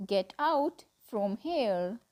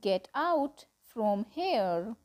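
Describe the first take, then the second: No difference in how they are said.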